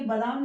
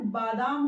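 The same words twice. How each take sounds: First: बादाम with a short first vowel, "badaam"; wrong short vowel. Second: बादाम with a long first आ, "baadaam"; correct long vowel. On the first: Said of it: "ये बादाम नहीं होता है". (बादाम, छोटा अ, गलत) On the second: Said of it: "बादाम होता है". (बादाम, लंबा आ, सही) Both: Shown as a demonstration.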